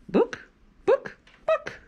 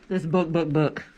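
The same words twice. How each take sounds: First: Very high squawky hen clucks; clucking hen. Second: Said in the usual way. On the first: Acted. Librarian reading to kids, clucking like a hen.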